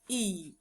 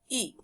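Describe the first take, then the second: First: The vowel is stretched out long. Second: The vowel is short and sharp. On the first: "because it's having macron, so you have to stretch it" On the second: "This is the short vowel"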